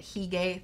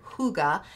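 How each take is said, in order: First: "Hygge" said as HEE-gay; pronounced hee-gay. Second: "hygge" said as HOO-guh; Danish word pronunciation. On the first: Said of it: "executive decision to call it". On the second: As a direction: say "hygge" with an oo first and a relaxed final syllable. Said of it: "based on a Danish word". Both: Shown as a demonstration.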